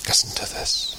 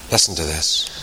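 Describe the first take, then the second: First: Whispered, drawing listeners in; listen closely, whispered. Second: Said in the usual way. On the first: Shown as a demonstration. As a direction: drop to a breathy whisper. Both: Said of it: "repeated ever quieter".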